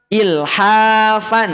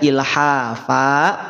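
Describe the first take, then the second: First: The word ends with a short vowel and n. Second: The word ends with a lengthened vowel, no n. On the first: The word is read joined to what follows. "Semula dibaca ilhafan" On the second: The reader stops on this word. "Nunnya hilang. Jadi dibaca ilhafa, panjang dua harokat"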